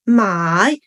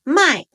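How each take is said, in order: First: The tone dips low and then rises. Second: The tone falls sharply from high to low. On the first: It means to buy. "if the tone change into the third one" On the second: It means to sell. "卖 has the fourth tone, so 卖卖 is going down"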